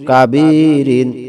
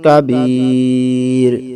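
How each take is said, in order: First: The word ends with an -in sound. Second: The word ends on r with no -in. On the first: The reciter continues without stopping. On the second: The reciter stops to take a breath here.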